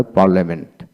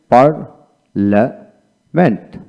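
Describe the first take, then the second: First: Said in the usual way. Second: parliament very slowly in three separated parts; teacher's slow breakdown of parliament; syllable by syllable. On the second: Shown as a demonstration. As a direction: break parliament into par, la, ment with pauses. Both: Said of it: "এইভাবে উচ্চারিত হয়".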